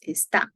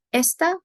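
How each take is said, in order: First: "está" with the weight on the final TÁ; stress on last syllable. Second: "Esta" with the weight on ES; stress on first syllable. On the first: Teacher showing where the emphasis goes, final-syllable stress on "está". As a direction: say es-TÁ, light start, strong ending. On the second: Teacher showing where the emphasis goes, first-syllable stress on "Esta". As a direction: say ES-ta, first syllable strong, second light. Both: Shown as a demonstration. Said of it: "the emphasis in that".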